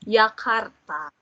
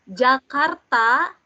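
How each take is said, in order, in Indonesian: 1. Kata itu diawali dengan bunyi Y. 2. Kata itu diawali dengan bunyi J.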